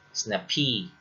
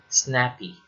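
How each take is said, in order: First: The stress is on the second syllable. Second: The stress is on the first syllable. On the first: The speaker calls it wrong. "not snappy" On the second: The speaker calls it right. "Most two-syllable adjectives have stress on the first syllable. ... It's actually pronounced as snappy"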